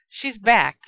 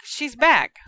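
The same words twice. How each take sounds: First: Louder, higher cackling announcement; gleeful shout. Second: Even higher, loud taunting shriek; louder gleeful shriek. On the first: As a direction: poltergeist crows the news to the room, loud. Poltergeist shrieks at Harry. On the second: Poltergeist taunts Harry, shrieking higher. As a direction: push the repeat up into a shriek. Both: Acted.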